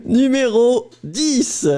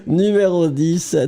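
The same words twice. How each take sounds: First: Slow, high French teacher; Numéro dix said slowly and high like a French teacher. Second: Said in the usual way. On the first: Acted. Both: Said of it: "you literally sound like my French teacher".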